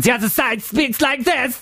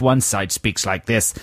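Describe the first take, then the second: First: High, hammed-up German villain voice; cartoon German enemy, pitched up; German baddie accent. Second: Said in the usual way. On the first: Shown as a demonstration. Co-host contrasts the two warring sides, mock German baddie accent. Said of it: "Like baddies, you mean?".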